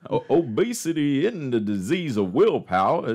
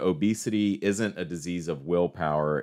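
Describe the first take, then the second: First: It is said in a put-on Texan accent. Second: It is said in a plain everyday voice.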